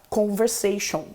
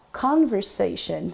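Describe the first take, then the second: First: "Conversation" with a nasal vowel and no tongue-touched N; Brazilian nasal English. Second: "Conversation" with tongue touching behind the teeth for each N; slow, lower "Conversation", N fully sounded; clear English N. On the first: Teacher showing the Brazilian habit, "Conversation" with N swallowed nasally. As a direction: say "Conversation" with Portuguese nasal endings. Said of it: "O que que o brasileiro faz". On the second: Teacher showing students the corrected English, "Conversation" with crisp N. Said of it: "encosta a sua língua lá e fala".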